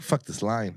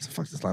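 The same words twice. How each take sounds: First: Said in the usual way. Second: Hushed, breathless "Fuck this line."; whispered "Fuck this line." to himself; whispered curse. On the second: Retold or imitated. Repeated line, unvoiced take.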